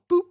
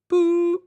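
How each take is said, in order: First: The sound is short and clipped. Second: The sound is drawn out and long. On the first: "a little boop" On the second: "you go boop"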